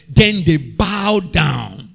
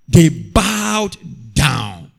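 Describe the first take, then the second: First: Drawn-out, slow reading of scripture. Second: Slower again, stretched; slow solemn repeat. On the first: Preacher reading the verse to the church, slowly. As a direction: let each word land. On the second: Preacher repeating the verse to the church, slow. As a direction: linger on they bowed down. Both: Shown as a demonstration. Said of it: "the last part of that scripture says".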